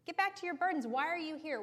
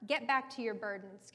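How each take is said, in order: First: High, scornful king shooing people away; scornful Pharaoh. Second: Said in the usual way. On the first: Acted. Pharaoh waving off the elders in the room, high and scornful. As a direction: bark it back at them, dismissive and higher. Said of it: "Can you imagine him gesturing to the elders". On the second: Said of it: "Can you imagine him gesturing".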